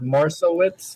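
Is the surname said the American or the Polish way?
American. The name is said with an American pronunciation. "which is the American way"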